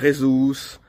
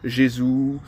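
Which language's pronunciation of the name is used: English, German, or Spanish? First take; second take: Spanish; German. First: The name is pronounced the Spanish way. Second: The name is pronounced the German way. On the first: "les Espagnols disent" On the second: "en Allemagne on va dire"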